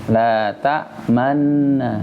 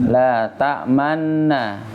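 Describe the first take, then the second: Both takes have the same delivery.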